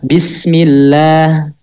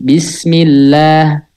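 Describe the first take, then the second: No difference in how they are said.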